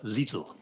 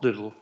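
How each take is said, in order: First: The name is said the German way. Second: The name is said the English way. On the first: This is how native speakers say it. The speaker calls it right. "but Lidl ... the one that the people from the country would use" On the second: This is how British speakers say it. The speaker calls it wrong. "Not Lidl, ... the ones that we choose to apply erroneously"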